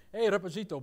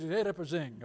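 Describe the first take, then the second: First: "Reposito" with a Spanish "-ito" ending; lightly mock-Spanish call; Spanish-style Portuguese. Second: "Reposinho" with a Portuguese nasal "-inho" ending; plain Portuguese pronunciation. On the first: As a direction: imitate father making it sound Spanish. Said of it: "my father put it with, like, a Spanish". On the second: Shown as a demonstration. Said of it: "In Portuguese".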